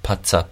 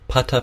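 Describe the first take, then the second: First: The T is released with a hissing ts sound. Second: The T is a clean stop without hiss. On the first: The speaker calls it wrong. "We don't want patsa, patsa, patsa. Should be none of that ts kind of sound" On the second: The speaker calls it right. "Make sure that your T sound is made on the gum ridge"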